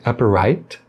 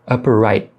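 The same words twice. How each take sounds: First: The final T sound is fully released. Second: The final T sound is stopped, not released. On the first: "Tá correto falar assim" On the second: "como se você quisesse pronunciar e interrompesse"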